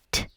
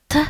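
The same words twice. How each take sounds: First: "T" said softened, with a light y glide; soft t. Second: "T" said as a plain hard t. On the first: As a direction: breathe "T" out soft and palatalized. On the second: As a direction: say "T" hard, with no y glide. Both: Shown as a demonstration. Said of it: "followed by the soft sign".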